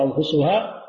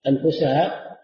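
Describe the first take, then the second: First: أنفسها read anfusuha, with "u" after the sin; damma reading. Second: أنفسها read anfusaha, with "a" after the sin; fatha reading. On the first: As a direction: give أنفسها its subject ending, "-suha". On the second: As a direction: give أنفسها its object ending, "-saha". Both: Shown as a demonstration. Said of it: "أنفسها أو أنفسها".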